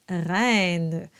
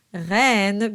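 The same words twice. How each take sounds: First: "reine" slow, in a local Canadian French way; Canadian French vowel drawn out in "reine"; Canadian French accent. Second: Sung, "reine" with a plain open eh, rhyming with "Lorraine"; sung, pure eh vowel in "reine"; singing pronunciation. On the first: Coach admits own tendency, Canadian French accent. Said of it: "that's my spoken accent". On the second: Sung, coach wants the whole song to rhyme, open eh. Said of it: "when I'm singing this song". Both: Shown as a demonstration.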